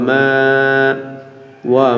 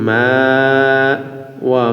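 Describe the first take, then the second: No difference in how they are said.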